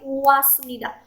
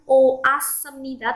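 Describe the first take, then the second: First: The first two vowels merge into one syllable. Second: The first two vowels are separate syllables. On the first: The speaker calls it right. "tapi wasmida" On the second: The speaker calls it wrong. "Bukan o asmida"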